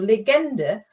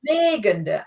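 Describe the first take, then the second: First: The stress is on the second syllable. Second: The stress is on the first syllable. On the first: It means a legend. "if you put the emphasis on the second uh, syllable" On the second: It means egg-laying. "But this is"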